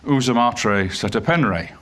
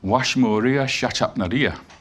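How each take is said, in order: First: It starts with 'oo' and has 'e' vowels. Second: It starts with 'wa' and has 'sh' sounds. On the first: This is the modern scholarly convention with inserted vowels. "So we go" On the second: This is how the name sounded to ancient foreign scribes. "it doesn't sound like that at all. It sounds like"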